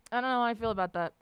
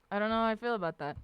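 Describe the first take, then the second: No difference in how they are said.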